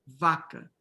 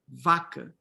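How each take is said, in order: The two takes are said the same way.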